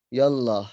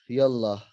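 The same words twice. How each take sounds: The two takes are said the same way.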